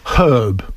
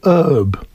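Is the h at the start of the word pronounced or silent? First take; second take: pronounced; silent. First: The word begins with a pronounced h sound. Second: The word begins without any h sound. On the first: This is the British way of saying it. "We have a word herb" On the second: This is the American way of saying it. "In American English, you say herb. Nie wymawia się"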